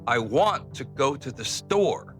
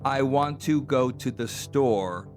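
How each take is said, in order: First: Key words are stressed and the rest are soft. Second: Every word gets roughly even, full weight.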